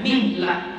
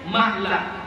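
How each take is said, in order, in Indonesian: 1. Vokal pertama adalah bunyi 'i'. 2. Vokal pertama adalah bunyi 'a'. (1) "dan mengkasrahkannya" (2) "dan memfathahkannya"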